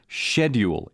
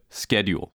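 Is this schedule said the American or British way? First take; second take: British; American. First: It is said with a British pronunciation. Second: It is said with an American pronunciation. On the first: This is the colonial-influenced way relatives say it. "the way my family members say the word schedule" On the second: This is the usual way elsewhere. "instead of schedule"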